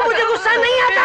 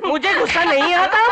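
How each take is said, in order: First: Much higher, louder yell of the same denial; angry shout. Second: A touch louder, straining to stay calm; tense denial. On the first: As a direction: let the anger burst out. Denial boils over. (ऊँची आवाज़ में गुस्से से चिल्लाना) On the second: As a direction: hold the anger just under the lid. Man insisting he's calm. (दबे गुस्से में ज़ोर देकर) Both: Acted.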